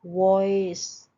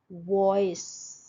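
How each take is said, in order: First: वॉइस louder and slow, o gliding to i; diphthong demo. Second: वॉइस slow, o sliding to i; diphthong demo. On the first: Teacher repeating the word for students, slow. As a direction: lean into the oi glide of वॉइस. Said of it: "You wanna change ओए". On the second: Teacher modelling a diphthong, slow. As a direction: stretch वॉइस, glide o to i. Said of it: "शुरू हुआ ओ से और खत्म हो रहा है ई पे". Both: Shown as a demonstration.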